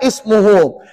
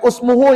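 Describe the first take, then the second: First: The word begins with an i vowel. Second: The word begins with a u vowel. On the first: The speaker calls it right. "tetapkan bacaannya baris di bawah" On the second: The speaker calls it wrong. "Bukan usmuhu ya"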